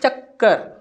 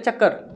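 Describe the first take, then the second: First: The k sound is doubled and held. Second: The k sound is short and quick. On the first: The speaker calls it right. "आप इस प्रकार से करते हो" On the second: The speaker calls it wrong. "इस प्रकार से नहीं करते हो"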